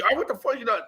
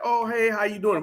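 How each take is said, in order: First: Mock hostile snap, a bit higher; rude challenge. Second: Easy, friendly hello, a bit higher; nice greeting. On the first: Imitating a stranger's rude greeting, mock hostile. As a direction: throw it at him like a confrontation. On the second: Retold or imitated. To a fellow ex-inmate, a friendly hey. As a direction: greet them like nothing's wrong. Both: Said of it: "I don't mean in a nice manner".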